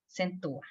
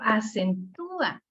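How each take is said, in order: First: The stress is on the first syllable. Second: The stress is on the third syllable. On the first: The speaker calls it wrong. "no le puedo dar la, la fuerza a la A porque se oye exagerado" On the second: The speaker calls it right. "el sonido me lo pide"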